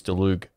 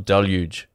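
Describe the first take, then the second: First: "Deluge" with a hard g ending; "Deluge" rhyming its end with "Moog"; alternative pronunciation. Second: "Deluge" ending like "huge"; alternative pronunciation. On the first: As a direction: say "Deluge" as "duh-LOOG". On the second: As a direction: say "Deluge" as "DEL-yooj". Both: Shown as a demonstration. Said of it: "however you say it".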